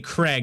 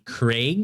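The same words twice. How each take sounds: First: The vowel sounds like the one in leg. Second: The vowel does not sound like leg. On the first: This is how the speaker's own accent says it. "we would say Craig as in like K R E G" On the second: This is how it is said in Scotland. "But it'd be Craig"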